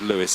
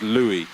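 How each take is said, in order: First: The name is said with an English pronunciation. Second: The name is said with a French pronunciation. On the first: The speaker calls it wrong. "I said Lewis" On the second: The speaker calls it right. "French pronunciation"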